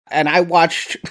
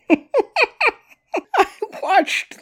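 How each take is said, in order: First: Said in the usual way. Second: Bursts out laughing high on the words. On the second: Real, not acted. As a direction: laugh through it while saying what you watched. Breaks into a laugh mid-sentence.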